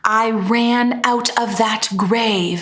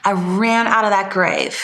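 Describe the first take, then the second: First: Every consonant is pronounced crisply and fully. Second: Many consonants are dropped for a loose sound. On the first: The speaker calls it wrong. "it's not" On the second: The speaker calls it right.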